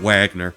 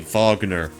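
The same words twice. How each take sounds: First: The name begins with a W sound. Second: The name begins with a V sound. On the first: "instead of Wagner" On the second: "like you would say Wagner back in Germany"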